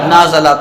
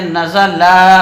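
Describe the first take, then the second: First: The first vowel is drawn out long. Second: The third vowel is drawn out long. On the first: "अगर कोई इसको पढ़ दे नाज़ला" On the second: "लाम को अगर किसी ने खींच दिया"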